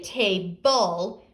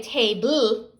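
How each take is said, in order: First: "table" said slowly as "tay-bull"; table with schwa. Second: "table" ending in a b-l blend, like "tay-bloo"; table without schwa. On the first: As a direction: put a clear uh between b and l in "table". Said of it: "and there's that schwa". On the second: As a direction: run b straight into l at the end of "table". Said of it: "We don't say table". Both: Shown as a demonstration.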